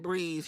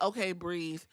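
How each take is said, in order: First: Lower, softer "Breathe."; calm her down softly; gentle reminder to breathe. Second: Much lower and softer "okay, breathe"; soothing self-talk; calming quiet. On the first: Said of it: "Adam Pearce even said". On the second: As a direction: talk yourself down gently. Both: Retold or imitated.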